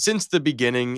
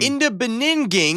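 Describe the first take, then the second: First: Said in the usual way. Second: "Beninging" said as bin-ning-ging, higher and louder; jokey mispronunciation. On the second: Shown as a demonstration. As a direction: garble "Beninging" as a joke word. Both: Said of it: "in the Beninging".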